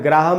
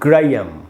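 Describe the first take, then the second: First: The middle 'h' is pronounced, as 'Gra-ham'. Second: The 'h' is silent, as 'Gray-um'. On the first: The speaker calls it wrong. "इसका उच्चारण ग्राहम नहीं है" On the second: The speaker calls it right. "ये एच silent है"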